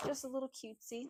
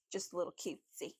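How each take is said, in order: First: Higher, sweet cutesy voice. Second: Said in the usual way. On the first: Shown as a demonstration. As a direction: say it cute and playful. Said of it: "repeated higher". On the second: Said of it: "repeated more cutesy".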